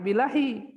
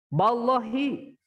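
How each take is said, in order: First: The first syllable is said with an 'i' vowel. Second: The first syllable is said with an 'a' vowel. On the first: It is a plain preposition, not an oath. The speaker calls it wrong. "ulah bilahi, lamun bilahi mah bana berarti harap ho hofad" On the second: It is an oath: by God. The speaker calls it right. "lamun harap sumpah mah macana ba"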